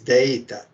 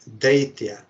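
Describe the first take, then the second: First: The name ends with a plain 'ta' sound. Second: The name ends with a 'tya' sound. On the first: It refers to the name of the guru. The speaker calls it right. "It is Daita" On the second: It means demon. The speaker calls it wrong. "they mispronounce. They say Bhakti Daitya. That is not correct"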